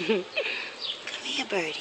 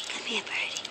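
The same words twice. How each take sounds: First: Coaxing a wild bird. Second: Breathy whispered call to a bird; whispered coaxing. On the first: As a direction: gently coax the bird closer. Calling the bird softly. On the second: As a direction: whisper to lure the bird over. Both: Real, not acted.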